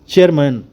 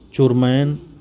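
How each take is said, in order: First: The first vowel sounds like 'ay'. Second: The first vowel sounds like 'o'. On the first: This is the proper way to say the word. The speaker calls it right. "अपनी बोली को सुधारिए और बोलिए" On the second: The speaker does not know the word. The speaker calls it wrong. "नासमझ बुड़बक सा चेहरा बनाते हुए बोला"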